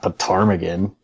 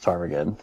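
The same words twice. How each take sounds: First: It is said in a condescending, belittling tone. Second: It is said in a plain, neutral tone. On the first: The listener is made to feel foolish. The speaker calls it wrong. "make it sound like they're stupid" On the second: The listener is simply informed without embarrassment. The speaker calls it right. "Or you could just say"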